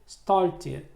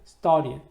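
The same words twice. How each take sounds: First: The following sound is pulled back, American-style. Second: The t sound is hidden, American-style. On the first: "미국 사람들은 ... 뒤에 있는 의 소리를 이렇게 받침으로 끌어당기는 습관이 있습니다" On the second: "이 t 발음을 숨기는 경우도 있습니다"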